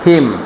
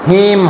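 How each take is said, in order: First: The vowel is clipped short. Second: The vowel is drawn out long. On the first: The speaker calls it right. "বরং short হিম" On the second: The speaker calls it wrong. "হিম হবে না"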